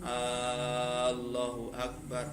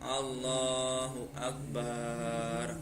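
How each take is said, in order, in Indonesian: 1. Bunyi A di awal dipanjangkan. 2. Suku kata bar dipanjangkan. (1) "hamzahnya a-nya itu tidak boleh dipanjangkan" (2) "Kalau dipanjangkan contohnya"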